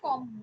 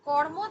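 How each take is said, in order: First: A doubled m is heard with no r. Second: An r sound is heard before the m. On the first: The later consonant has changed the earlier one. "পরাগতর প্রভাবে" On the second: This is the original form before assimilation. "কর্ম থেকে হচ্ছে"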